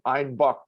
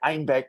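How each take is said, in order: First: The vowel sounds like bock, in a southern way. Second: The vowel sounds like beck, in a northern way.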